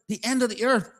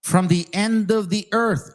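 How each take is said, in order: First: Higher-pitched, disbelieving question; incredulous echo. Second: Said in the usual way. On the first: Real, not acted. Challenging a doctrine with the verse's words, incredulous. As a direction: repeat it as if it's absurd.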